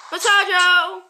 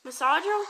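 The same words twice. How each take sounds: First: Masajo! belted out as mə-SAH-joh, loud and sure; confident mispronunciation. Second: Masajo? said as mə-SAH-joh with a rising question; testing the sound Masajo? with a lift at the end; trying out a word. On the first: Gamer shouting a made-up word for massager, loud. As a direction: proclaim Masajo! as if it were right. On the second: Gamer unsure how to say massager, tries Masajo?. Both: Shown as a demonstration. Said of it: "I don't know how to say massager".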